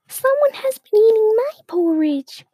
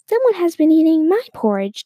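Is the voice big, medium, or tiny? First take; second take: tiny; medium. First: It is said in a tiny voice. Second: It is said in a medium voice.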